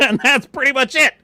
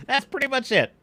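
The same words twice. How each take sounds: First: High, loud, laughing as he wraps up; laughing sign-off. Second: Said in the usual way. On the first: Real, not acted. Streamer wrapping up the rant, laughing loudly. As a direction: chuckle out the ending.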